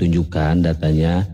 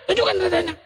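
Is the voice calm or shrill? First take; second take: calm; shrill. First: The voice is calm and smooth. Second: The voice is high and shrill. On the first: The speaker calls it right. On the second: Oten is asking. The speaker calls it wrong. "Coba kalau Oten"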